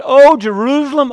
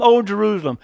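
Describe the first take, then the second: First: Loud, high lament on "Oh, Jerusalem"; impassioned loud lament; anguished cry. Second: Said in the usual way. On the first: Acted. Jesus lamenting over the city.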